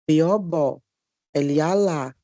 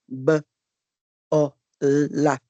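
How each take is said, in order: First: Letter names are spelled out, then each syllable is said. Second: The sounds are stretched and flow into each other. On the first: The reader is not yet fluent. The speaker calls it wrong. "tem aluno que lê assim, ó" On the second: The reader is fluent. The speaker calls it right. "Fluente é quando ele olha para a palavra bola e faz o som"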